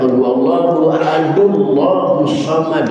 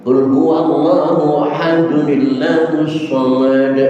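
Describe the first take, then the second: First: Ahad runs straight into Allahus with no added sound. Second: Ahad links to Allahus through a short n-i sound. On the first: The speaker calls it wrong. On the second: The speaker calls it right. "Yang benar qul huwallahu ahadunillahus samad"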